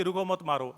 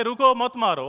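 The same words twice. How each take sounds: First: रुको मत as one phrase, then मारो; softer, grouping रुको मत before मारो; मत joined to रुको. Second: रुको set apart from मत मारो; "रुको", then "मत मारो" as a don't-hit order; pause after रुको. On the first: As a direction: run रुको into मत, leave मारो separate. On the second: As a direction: break after रुको, keep मत मारो as one phrase. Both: Shown as a demonstration. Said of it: "line ही change हो जाता है".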